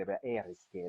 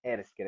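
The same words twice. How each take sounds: First: Said in the usual way. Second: "Erskine" with the R rolled on the tongue. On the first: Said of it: "people roll their R's". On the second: Shown as a demonstration. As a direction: roll the R in "Erskine" like a southern islander. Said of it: "people roll their R's a lot more when they say".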